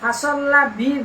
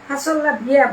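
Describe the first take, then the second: First: The last word ends short, as 'bi'. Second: The last word ends long, as 'biya'. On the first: The speaker calls it wrong. "فصلى بي বললে" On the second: The speaker calls it right. "فصلى بيا বলো ভালো হবে"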